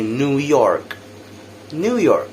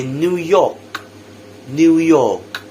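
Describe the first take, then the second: First: New York with a clear r; American New York, r-coloured "York"; American pronounced r. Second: New York as "new yawk", no r; British New York, r-less "York"; British silent r. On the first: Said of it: "But in America, they would say". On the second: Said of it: "the R is totally silent". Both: Shown as a demonstration.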